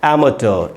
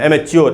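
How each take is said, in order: First: The word ends with a 't' sound, '-ter'. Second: The word ends with a drawn-out '-chyoor' sound. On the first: The speaker calls it right. "तो इसको पढ़ेंगे दोस्तों एमेटर" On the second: The speaker calls it wrong. "एमेच्योर नहीं बोलना है"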